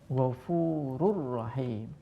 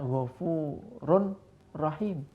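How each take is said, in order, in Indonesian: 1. Bunyi n menyatu dengan r yang didobel. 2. Bunyi n dibaca terpisah sebelum r. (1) "tapi dibaca ghafurur rahim" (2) "Tidak boleh dibaca ghafurun rahim"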